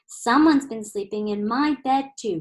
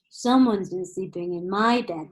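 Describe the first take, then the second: First: It is said in Mama Bear's low growl. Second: It is said in Daddy Bear's loud, deep roar.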